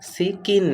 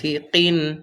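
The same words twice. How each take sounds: First: The consonant is a plain front k sound. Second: The consonant is a deep q with a push. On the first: The speaker calls it wrong. "সিকিন না" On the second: The speaker calls it right. "ওই কফ দিয়ে একটু ধাক্কা হবে"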